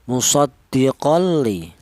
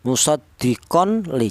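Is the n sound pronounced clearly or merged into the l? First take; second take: merged; clear. First: The n sound merges fully into the l. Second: The n sound is pronounced clearly before the l. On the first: The speaker calls it right. "langsung dilebur ke huruf lam" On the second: The speaker calls it wrong. "jangan dibaca jelas atau idhar seperti contoh musaddiqon li"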